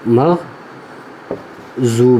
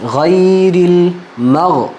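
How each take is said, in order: First: The key consonant sounds like a j. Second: The key consonant is a heavy emphatic d. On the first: The speaker calls it wrong. "जा की आवाज़ नहीं आनी चाहिए" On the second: The speaker calls it right. "तो अब इसको पढ़ते हैं"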